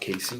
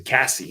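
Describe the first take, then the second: First: The first vowel is long, as in 'case'. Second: The first vowel is short, as in 'cat'. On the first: The speaker calls it wrong. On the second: The speaker calls it right.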